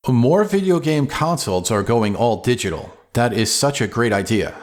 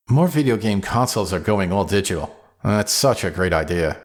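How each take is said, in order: First: Said in the usual way. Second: Dry sarcasm, pitched lower at the end; sarcastic. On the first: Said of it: "The first, with no sarcasm". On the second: Shown as a demonstration. Presenter demonstrates the same line with sarcasm, sarcastic. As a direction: say it as if you mean the opposite. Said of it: "now I'll read it with sarcasm".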